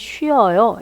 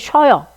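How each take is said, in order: First: The vowels are kept as two separate syllables. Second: The vowels are merged into one shortened syllable. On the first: The speaker calls it right. "말을 정확하게 하시는 분들은" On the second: The speaker calls it wrong. "우리가 말할 때는 이렇게 하죠"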